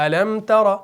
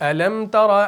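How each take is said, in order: No difference in how they are said.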